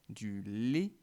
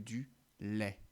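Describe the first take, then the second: First: The final vowel is a closed e sound. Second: The final vowel is an open e sound. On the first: The speaker calls it wrong. "il m'arrive souvent de dire du lait" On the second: The speaker calls it right. "plutôt que"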